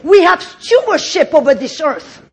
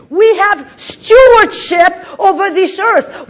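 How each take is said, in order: First: Said in the usual way. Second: Louder, slower, stewardship stressed; slow emphatic shout. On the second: Shown as a demonstration. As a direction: preach it out loud and slow.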